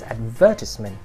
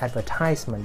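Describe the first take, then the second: First: The stress is on the second syllable. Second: The stress is on the third syllable. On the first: The speaker calls it right. "the stress is not on the third, but is on the second syllable" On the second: The speaker calls it wrong. "It's not advertisement"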